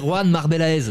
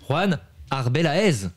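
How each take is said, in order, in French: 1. Le nom de famille commence par un son M. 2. Le nom de famille commence par un son voyelle. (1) "j'allais dire Juan Marbelaez. Non" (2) "Parfait. Nickel"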